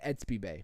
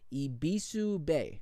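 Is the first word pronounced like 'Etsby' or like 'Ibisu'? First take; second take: Etsby; Ibisu. First: The first word sounds like 'Etsby'. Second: The first word sounds like 'Ibisu'. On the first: "I've been calling it Etsby Bay" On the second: "I'm going to try to pronounce the swap. Is it Ibisu Bay"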